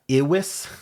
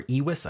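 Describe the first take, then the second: First: "iwis" starting with a short "ih". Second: "iwis" starting with a long "ee". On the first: Guessing at an odd word for viewers, "iwis" as IH-wiss. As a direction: say "iwis" as IH-wiss, rising at the end. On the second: Correcting a guess at an odd word, "iwis" as EE-wiss. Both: Shown as a demonstration. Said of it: "I don't know how that's pronounced".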